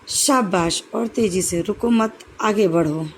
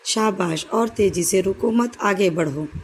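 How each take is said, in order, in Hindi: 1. स्पष्ट विराम वाक्यांशों को अलग करते हैं। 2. वाक्यांश बिना स्पष्ट विराम के एक-दूसरे में मिल जाते हैं। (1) "विराम चिन्हों का प्रयोग करके" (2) "किसी भी वाक्य में का स्पष्ट अर्थ पता नहीं चला"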